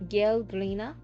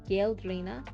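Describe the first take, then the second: No difference in how they are said.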